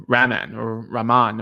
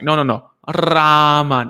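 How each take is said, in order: First: "Raman" with a weak, failed rolled R; unsuccessful R trill. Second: "Raman" with long rolled R and stretched vowel; slowed-down correction. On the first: Learner attempting an Indonesian name, fumbled R in "Raman". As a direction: try and fail to trill the R in "Raman". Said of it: "I wasn't that good in Indonesian using the R". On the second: Indonesian speaker correcting a learner, slowed-down trilled "Raman". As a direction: correct them, drawing "Raman" out slowly with a strong trill. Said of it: "he slowed it down for me". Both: Retold or imitated.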